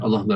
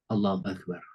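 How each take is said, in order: First: It is said quickly and without feeling. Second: It is said slowly and with deep feeling. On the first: The words are recited without the heart engaged. The speaker calls it wrong. "Bandingkan dengan" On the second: The heart is engaged in remembering God. The speaker calls it right. "Jadi rasakan misalnya nih"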